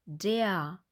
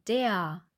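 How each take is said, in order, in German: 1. Das Wort endet mit einem offenen A-ähnlichen Laut. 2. Das Wort endet mit einem offenen A-ähnlichen Laut.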